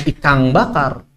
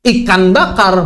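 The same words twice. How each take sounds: First: "ikan" said as "ikang" before "bakar", slow; wrong ng form. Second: "Ikan" with a clean n before "bakar", slow; plain n. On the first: Teacher showing what Bugis do not say, ng form. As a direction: turn the n of "ikan" into ng. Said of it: "di akhir jadi makan". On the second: Teacher showing the mid-phrase form, plain n. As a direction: say "Ikan" slowly, ending on n. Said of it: "bukan ikan bakar". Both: Shown as a demonstration.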